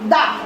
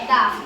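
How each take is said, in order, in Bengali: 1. শব্দটি একটি ছোট 'uh' স্বরধ্বনি দিয়ে শেষ হয়। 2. শব্দটি একটি ছোট 'uh' স্বরধ্বনি দিয়ে শেষ হয়।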